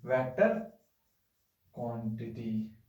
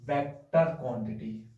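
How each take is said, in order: First: Slow repeat. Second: Said in the usual way. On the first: Shown as a demonstration. Teacher repeating the term for students' notes, slow. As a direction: drag out vector quantity so it sticks. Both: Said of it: "क्या बोलते हैं?".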